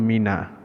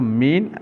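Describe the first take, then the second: First: The word ends with an added a vowel. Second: The word ends on a closed n sound. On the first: The word links to a following article. "dia akan jadi mina untuk menyambungkan bacaan" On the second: This is the basic form of the word. "kalau biasanya min lah"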